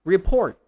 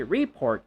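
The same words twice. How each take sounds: First: RePORT, short re and loud PORT; stress on second syllable. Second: REE-port, long stressed first syllable. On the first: Teacher gives the right form, second-syllable stress. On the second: Teacher shows the mistake, first-syllable stress. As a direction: report with the weight wrongly on RE. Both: Shown as a demonstration. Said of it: "So you don't say report".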